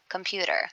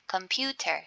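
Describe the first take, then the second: First: The T is a soft sound, near an R. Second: The T is a crisp, hard T sound. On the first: "I say it a little bit faster and then it sounds like between T and R" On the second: "The T can be harder"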